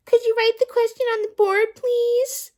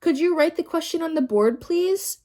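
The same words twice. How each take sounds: First: Much higher, loud sneering mimicry; mock the child's polite question. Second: Said in the usual way. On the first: A narrator's reading. Teacher mocking Rondi's question. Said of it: "In a mocking voice". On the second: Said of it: "asked Rondi".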